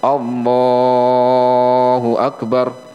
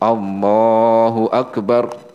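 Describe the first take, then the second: First: It is stretched out too long. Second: It is held for a moderate length.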